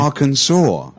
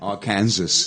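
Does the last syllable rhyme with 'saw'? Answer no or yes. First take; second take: yes; no. First: The last syllable sounds like saw. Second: The last syllable does not sound like saw. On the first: The speaker calls it right. "like it's an S A W" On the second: The speaker calls it wrong. "I used to say Arkansas"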